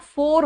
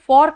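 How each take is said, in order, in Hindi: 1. स्वर बंद 'oh' ध्वनि है। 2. स्वर खुला 'aw' ध्वनि है। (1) "हरियाणा पहुंचते पहुंचते ये फॉर का फोर हो जाता है" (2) "फॉर and फॉर, F O R, फॉर"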